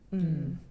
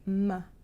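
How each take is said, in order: First: The m sound is short with no vowel. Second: The m sound ends with a short uh vowel. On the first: The speaker calls it right. "The purest form is M" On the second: The speaker calls it wrong. "that's not the purest form"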